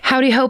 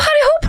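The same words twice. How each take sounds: First: It is said in the speaker's usual accent. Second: It is said in an attempted Irish accent.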